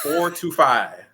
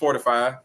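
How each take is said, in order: First: The phrase is said more slowly and deliberately. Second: The phrase is said at normal conversational speed.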